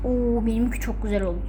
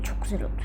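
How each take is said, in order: First: Said in the usual way. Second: Soft unvoiced whisper; whispered echo. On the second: Shown as a demonstration. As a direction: whisper it back to yourself. (fısıltıyla tekrar)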